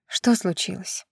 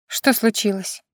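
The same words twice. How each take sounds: First: Much softer and slow, hushed tender question; soft, slow half-whispered mother's question. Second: A touch softer, caring mother asking; gently concerned, not yet hushed; mother's light sympathetic question. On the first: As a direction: ask it gently under your breath, to comfort a crying child. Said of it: "Нежным полушёпотом поинтересовалась она". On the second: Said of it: "участливо поинтересовалась она". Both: A narrator's reading.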